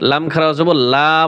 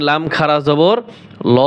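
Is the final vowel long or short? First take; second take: long; short. First: The final vowel is long and drawn out. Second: The final vowel is short and clipped. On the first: The speaker calls it wrong. "বলা যাবে না" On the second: The speaker calls it right. "এখানে লাম খারা জবর ল হবে"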